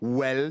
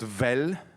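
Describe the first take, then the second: First: The word begins with a W sound. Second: The word begins with a V sound. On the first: "I say well" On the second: "not vel"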